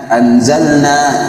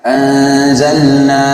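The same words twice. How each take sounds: First: The n is pronounced clearly and distinctly. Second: The n is hidden with a nasal sound. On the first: The speaker calls it wrong. "tidak diikhfakan" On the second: The speaker calls it right. "yang harusnya uh, ikhfa"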